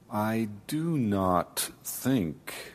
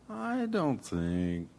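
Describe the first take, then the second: First: Each sound is slow and strongly articulated. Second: The T and K sounds are soft and short. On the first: The speaker seems formal and unwilling to let others join in. The speaker calls it wrong. "If I slow it down too much, I try to articulate each sound very clearly" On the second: The speaker seems relaxed and open to conversation. The speaker calls it right. "if I soften some of those sounds"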